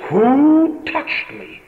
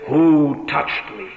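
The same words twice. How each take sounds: First: Incredulous, high-pitched and drawn-out question; astonished echo. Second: Slow, measured question at normal pitch; deliberate answer to astonished disciples; insistent reply. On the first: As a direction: stretch each word, pitched high in disbelief. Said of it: "his astonished disciples say". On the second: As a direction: hold to the question, word by word. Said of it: "Oh, yes, he says, I am saying". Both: Retold or imitated.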